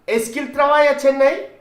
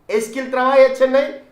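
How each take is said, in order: The two takes are said the same way.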